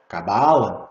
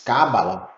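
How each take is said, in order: First: It is pronounced the Portuguese way. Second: It is pronounced the Spanish way. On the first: "Em português se diz" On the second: "Em espanhol se diz"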